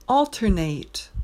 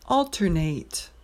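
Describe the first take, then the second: First: It is pronounced as the verb form. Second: It is pronounced as the verb form.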